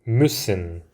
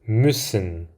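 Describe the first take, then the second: The two takes are said the same way.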